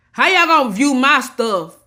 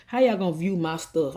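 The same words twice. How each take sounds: First: How y'all gonna view my stuff, higher and louder; exasperated outburst. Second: Said in the usual way. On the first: Real, not acted. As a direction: hit it hard, fed up with the viewers. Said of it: "I'm getting everything out my chest today". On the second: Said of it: "I'ma say it right now".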